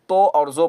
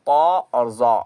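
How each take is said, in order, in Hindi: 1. अक्षरों के नाम 'o' स्वर पर खत्म होते हैं। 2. अक्षरों के नाम 'aa' स्वर पर खत्म होते हैं।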